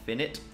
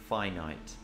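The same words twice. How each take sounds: First: The first syllable sounds like 'fin'. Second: The first syllable sounds like 'fine'. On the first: The speaker calls it wrong. "not finite. I don't know why the pronunciations are different" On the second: The speaker calls it right. "Finite, not finite"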